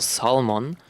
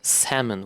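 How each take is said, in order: First: The L sound is pronounced. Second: The L sound is left out. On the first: The speaker calls it wrong. "actually not pronounced salmon" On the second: The speaker calls it right. "It's pronounced salmon without the without the L"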